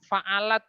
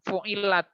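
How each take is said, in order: First: The vowels are a then a. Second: The vowels are u then i. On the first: The verb is active, so its subject must be feminine. The speaker calls it wrong. "Kalau kita baca maklum fa'alat" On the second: The verb is passive, referring back to the acts of worship. The speaker calls it right. "kita wajib membacanya fu'ilat"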